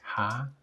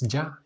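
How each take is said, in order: First: The syllable starts with a throaty h sound. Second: The syllable starts with a y sound. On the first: The speaker calls it right. "es ja" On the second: The speaker calls it wrong. "no es ya"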